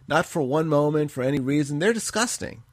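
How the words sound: It is read in a softened tone.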